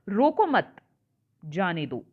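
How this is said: There is a pause right after 'mat'. Do not stop the person; let them go. "दूसरे में मैं मत के बाद लगा देती हूं"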